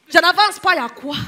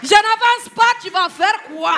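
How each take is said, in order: First: Put-on loud, defiant Ivorian accent; mock-indignant Ivorian retort; Ivorian mama. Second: Put-on high, loud, challenging Ivorian accent; full-blown mock-indignant Ivorian dare; Ivorian mama, escalated. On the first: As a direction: dig your heels in like an Ivorian mother. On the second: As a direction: shout defiance like an Ivorian mother. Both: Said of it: "il y a une maman ivoirienne".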